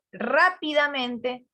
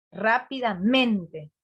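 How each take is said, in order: First: Rápidamente drawn out slowly, syllable by syllable with a clear beat on RÁ; slow stressed demo. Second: Rápidamente drawn out slowly with the stress landing on MEN; slow stressed demo. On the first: Teacher stretching the word for the class, slow and stressed. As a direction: spell out rápidamente slowly so both stresses are heard. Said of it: "tiene un acento en la primera". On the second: Teacher asking the class to find the second stress, slow and deliberate. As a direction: stretch Rápidamente, leaning on MEN. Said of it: "¿y después dónde tiene?".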